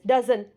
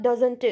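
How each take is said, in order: First: "Doesn't" finishing on the N, like "duzn"; doesn't without T. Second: "doesn't" with the T sounded as an added "tu"; doesn't with released T. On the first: Teacher modelling for learners, "Doesn't" with silent T. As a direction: swallow the T in "Doesn't". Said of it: "Doesn't, not doesn't". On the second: Teacher showing what to avoid, "doesn't" ending in "tu". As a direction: tack a clear T syllable onto "doesn't". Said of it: "not doesn't". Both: Shown as a demonstration.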